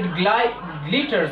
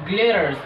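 First: The middle consonant is a clear T sound. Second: The middle consonant is a fast D sound. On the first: The speaker calls it wrong. "with a T sound, which is also incorrect" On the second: The speaker calls it right. "the correct pronunciation of this word is glitters with a D sound"

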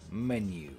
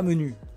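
First: The word is said with English vowels. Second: The word is said with French vowels. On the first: The speaker calls it right. "On dit menu" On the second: The speaker calls it wrong. "Mais on ne dit pas menu"

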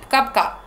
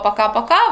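First: The first vowel is swallowed. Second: The vowels are fully pronounced.

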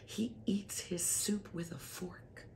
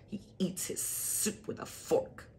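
First: It is said in a warm, admiring tone. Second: It is said in a scornful, contemptuous tone. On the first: The speaker adores the person and finds the habit charming. "when you're in love with someone, you might think, oh, he's so wonderful" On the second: The speaker no longer loves the person and finds the habit stupid. "when the love wanes and the love is over, you'll be like, such an idiot"

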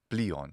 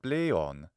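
First: It is said with the modern Greek pronunciation. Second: It is said with the ancient Greek pronunciation.

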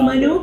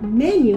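First: The first vowel is an open 'ah' sound. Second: The first vowel is an 'eh' sound, like menu. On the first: "perché in italiano M-A-N-U" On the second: "like menu?"

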